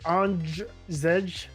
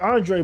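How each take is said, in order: First: The name ends with a buzzing 'zh' sound. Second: The name ends in a plain vowel sound. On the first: This is how the name is actually said. The speaker calls it right. "but it's like Andrzej" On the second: This is how the spelling looks at first glance. The speaker calls it wrong. "you look at it as like Andre"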